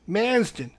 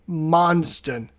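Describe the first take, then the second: First: The first vowel sounds like 'man'. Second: The first vowel sounds like 'mun'. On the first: It is the speaker's own habitual way of saying it. The speaker calls it wrong. "He doesn't like when I pronounce it like it's Manston" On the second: It imitates how another person says it. The speaker calls it right. "I'm trying to say it like Ruff would say it"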